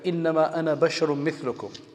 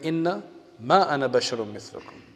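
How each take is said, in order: First: The first word is said as one unbroken word. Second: The first word is split into two words. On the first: The speaker is a human just like the listeners. The speaker calls it right. "this verse that I just read" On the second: The speaker is not a human like the listeners. The speaker calls it wrong. "they read as inna ma"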